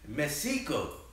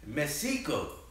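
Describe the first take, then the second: First: The x is a soft sh sound. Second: The same.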